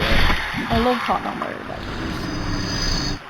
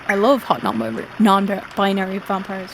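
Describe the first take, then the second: First: It is said quietly. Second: It is said loudly.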